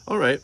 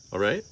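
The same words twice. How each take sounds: First: "All right" starting high and falling; agreeing. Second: "All right?" rising at the end; questioning. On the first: Child agreeing to the magic trick, agreeing "All right". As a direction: answer "All right" high and loud, dropping at the end. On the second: Parent checking the child got the trick, questioning "All right?". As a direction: ask "All right?" as a check, pitch lifting. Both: A narrator's reading.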